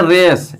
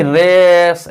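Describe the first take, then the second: First: रेस said short and simple; correct short race. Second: रेस stretched long and slow; wrong drawn-out race. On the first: Teacher showing students the right short रेस. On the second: Teacher demonstrating to students the wrong long रेस. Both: Shown as a demonstration. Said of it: "ऐसे नहीं बोलना है".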